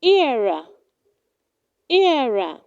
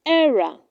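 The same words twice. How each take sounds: First: Era said as "EE-ra"; correct pronunciation. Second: Era said as "ERR-a"; wrong pronunciation. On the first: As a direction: start era with a long ee glide. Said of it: "It is pronounced". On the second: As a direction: open e at the start of era, as in error. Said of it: "Do not say". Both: Shown as a demonstration.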